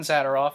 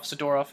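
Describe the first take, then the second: First: Zadorov with the stress up front, ZAD-er-off; first pronunciation of Zadorov. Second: Zadorov with the middle stressed, za-DOR-off; alternative pronunciation of Zadorov. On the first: Host offering one of two versions heard, Zadorov stressed first. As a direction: hit the first syllable of Zadorov. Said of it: "I don't know which one it is". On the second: Host unsure which is right, Zadorov stressed second. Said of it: "I've heard it both ways". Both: Shown as a demonstration.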